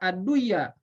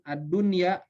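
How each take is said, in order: First: The n merges into the following y. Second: The n is pronounced clearly before the y. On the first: The speaker calls it wrong. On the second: The speaker calls it right.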